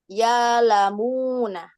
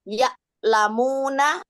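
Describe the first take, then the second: First: A long vowel replaces the glottal stop. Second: A glottal stop is heard inside the word.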